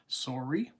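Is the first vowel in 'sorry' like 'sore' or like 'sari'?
sore. The first vowel is a rounded 'sore' sound. This is how some Canadians say it.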